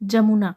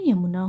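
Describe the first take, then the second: First: The word begins with a J sound. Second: The word begins with a Y sound. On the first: The speaker calls it wrong. "जमुना हमारा क्या है, गलत है" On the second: The speaker calls it right. "जमुना का शुद्ध रूप क्या हो जाएगा, यमुना हो जाएगा"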